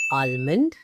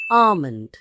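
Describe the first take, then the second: First: "almond" as AHL-mund, l sounded; incorrect pronunciation. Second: "almond" as AH-mund, silent l, louder; long falling "ah" in "almond", no l; correct pronunciation. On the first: Teacher listing the second error, "almond" with sounded l. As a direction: open "ah" plus a clear l in "almond". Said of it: "two incorrect pronunciations". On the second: Teacher correcting two errors, emphatic silent-l "almond". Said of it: "It clearly is". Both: Shown as a demonstration.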